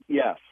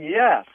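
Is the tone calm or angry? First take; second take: calm; angry. First: It is said in a calm, plain tone. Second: It is said in an angry tone.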